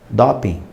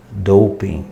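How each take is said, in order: First: "Doping" com o fechado, dó-pin; doping abrasileirado. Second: "doping" com ou, dou-ping; doping em inglês. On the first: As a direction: diga "Doping" como todos falam. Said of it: "Mas todos falam o quê?". (pronúncia brasileira de "Doping") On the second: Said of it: "vai fazer um teste de". (pronúncia inglesa de "doping") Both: Shown as a demonstration.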